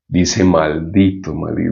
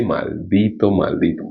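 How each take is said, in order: First: "Maldito" said low and grave, trailing off; a grave, low "maldito" repeated; lower solemn curse. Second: "Maldito" said softer and low, fading; a soft, low "maldito" repeated; quiet grave curse. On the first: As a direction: drop the voice for "maldito, maldito". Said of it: "Mira la respuesta". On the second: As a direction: hush it down on "maldito, maldito". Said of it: "Dice así". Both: Shown as a demonstration.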